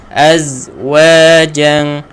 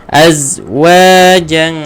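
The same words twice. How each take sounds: The two takes are said the same way.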